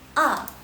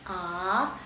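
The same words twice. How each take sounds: First: The pitch falls sharply from high to low. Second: The pitch rises from low to high. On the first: "Nada keempat" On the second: "nada kedua di sheng"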